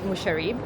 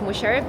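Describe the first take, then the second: First: The name is said with an Australian accent. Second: The name is said closer to the Arabic sounds. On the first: The speaker calls it wrong. "It's so Australian the way I say it" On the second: The speaker calls it right. "It's Musharib"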